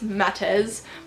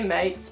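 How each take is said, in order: First: The name is said as two syllables. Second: The name is said as one syllable. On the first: This is what the speaker believes is correct. The speaker calls it right. "but I think it's Matters" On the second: This is how the speaker habitually says it. The speaker calls it wrong. "I always say Mates"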